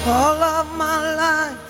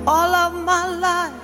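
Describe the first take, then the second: No difference in how they are said.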